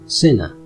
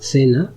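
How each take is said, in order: First: The word begins with an s sound. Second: The word begins with a th sound. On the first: This is how it is said in Latin America. "in Latin America, the pronunciation is C, ci" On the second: This is how it is said in Spain. "In Spain, we pronounce C, ci, with the sound th"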